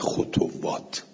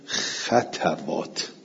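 First: A glottal stop replaces the w sound. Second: The first two syllables both carry an a vowel. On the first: "خطوات نه خطوات، به زمتین و همزتین" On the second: "به فتل خواه و تا"

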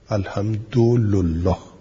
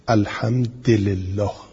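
First: The d has u and the l has u. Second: The d has i and the l has i. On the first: "و به ضم دال و لام" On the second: "در شواز به کسر دال و لام"

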